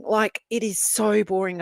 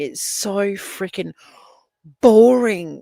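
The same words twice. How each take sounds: First: Slow, even "it is so boring" at normal volume; slow emphasis. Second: "boring" punched much louder, falling hard; slow build, then land "boring" loud; stress on boring. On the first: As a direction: spell it out slowly, deadpan. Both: Real, not acted.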